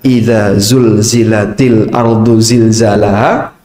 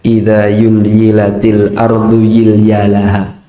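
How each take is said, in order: First: The z sounds are pronounced as z. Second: The z sounds are pronounced as y. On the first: The speaker calls it right. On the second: The speaker calls it wrong.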